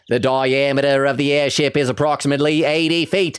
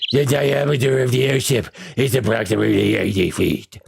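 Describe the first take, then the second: First: It is read in a normal speaking voice. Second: It is said in a gravelly put-on voice.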